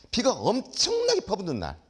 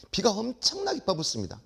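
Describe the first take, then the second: First: 엄청나게 drawn out and leaned on; slow down and weigh 엄청나게; 엄청나게 stretched for the downpour; stress on 엄청나게. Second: 엄청나게 leaned on, a little higher; 엄청나게 stressed to paint the rain. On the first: Recounting the storm night. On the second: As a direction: lift and press 엄청나게. Storm again while driving. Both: A narrator's reading.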